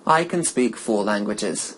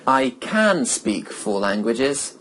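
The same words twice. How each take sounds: First: Can is said with a reduced vowel. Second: Can is said with a full vowel.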